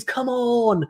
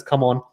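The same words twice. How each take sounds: First: Pitched-up mock yell of Come on!; imitated scream. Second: Said in the usual way. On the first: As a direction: echo the player's fist-pump cry, up high. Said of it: "And he screams". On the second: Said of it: "in English".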